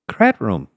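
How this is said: It is said softly, lightly and quickly.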